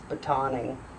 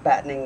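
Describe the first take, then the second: First: It sounds like baton, the stick. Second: It sounds like batten, as in hatches. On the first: The speaker calls it right. "I think it's batoning" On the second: The speaker calls it wrong. "I was pronouncing it like battening the hatches"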